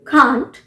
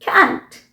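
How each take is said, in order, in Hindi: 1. स्वर एक लंबी खुली 'ah' ध्वनि है। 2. स्वर एक छोटी 'a' ध्वनि है, जैसे cat में।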